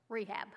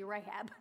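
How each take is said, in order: First: Rehab said as REE-hab like the clinic; wrong pronunciation. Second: Rahab said RAY-hab, ay sound first; correct pronunciation. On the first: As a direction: misread Rehab with a long ee first. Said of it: "not rehab". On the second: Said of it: "not rehab, Rahab". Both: Shown as a demonstration.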